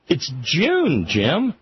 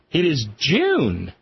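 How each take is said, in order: First: Said in the usual way. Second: Each word slow and heavy, stress on IS; slow emphatic stress. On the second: Shown as a demonstration. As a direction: say "It is June" slowly, leaning on "is".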